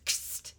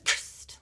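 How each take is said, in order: First: "Cursed" tossed off quiet and clipped; imitating a mumbled take. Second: Clipped whispered cursed, no voice; imitating a flat whisper. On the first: Podcaster repeats the actor's flat delivery, mumbled softly. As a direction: drop "Cursed" low and soft like a throwaway. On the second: Podcaster imitates the actor's odd line read, whispered. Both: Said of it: "like this".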